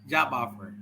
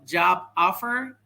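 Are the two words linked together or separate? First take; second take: linked; separate. First: The final consonant joins the next vowel. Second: The two words are said separately.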